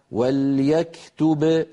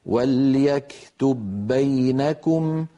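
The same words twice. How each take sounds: First: "وليكتب" slowly stopped on the final ب with a bounce; "وليكتب" as a pausal form, slow. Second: "وليكتب بينكم" slowly, the ب merged into the next ب; "وليكتب بينكم" read as connected recitation; joined with merging. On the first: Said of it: "لو وقفنا". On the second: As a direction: run "وليكتب بينكم" together with one doubled ب. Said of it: "أما لو وصلنا فإننا ندغم". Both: Shown as a demonstration.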